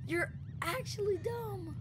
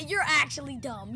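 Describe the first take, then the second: First: Slow, high, soft fake whine; a hammed-up weepy whine; mock crying. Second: Said in the usual way. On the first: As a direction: whimper it like mock sobbing. Third take, crying tone.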